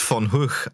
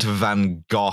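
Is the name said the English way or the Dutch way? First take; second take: Dutch; English. First: The name is said with a Dutch-style 'Hoog' ending. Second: The name is said with an English-style 'Go' ending. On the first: The speaker calls it right. "I know it's von Hoog" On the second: The speaker calls it wrong. "I'm going to start mispronouncing things like this just for further annoyance"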